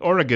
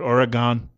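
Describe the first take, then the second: First: The last syllable ends with an 'un' sound. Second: The last syllable ends with an 'on' sound. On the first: The speaker calls it right. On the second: The speaker calls it wrong.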